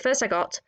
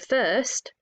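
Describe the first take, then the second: First: It runs on with no pause after first. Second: There is a pause after first.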